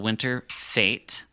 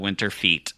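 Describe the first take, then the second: First: The second word rhymes with 'fate'. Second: The second word rhymes with 'feet'. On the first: The speaker calls it right. "I'm pronouncing that correctly this time" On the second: The speaker calls it wrong. "I kept on calling it the Winter Feet"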